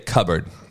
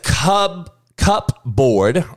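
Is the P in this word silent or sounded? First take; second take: silent; sounded. First: The P sound is left out of the word. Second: The P sound is pronounced in the word. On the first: The speaker calls it right. "or do they just say cupboard? Now, the P is silent" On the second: The speaker calls it wrong. "Who says cup board"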